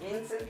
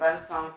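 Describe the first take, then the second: First: The name is said with Spanish pronunciation. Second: The name is said with French pronunciation. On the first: This is how people here say the name. The speaker calls it wrong. "aquí le dicen Vincent" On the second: This is how the name should be said. The speaker calls it right. "se debería pronunciar Vincent"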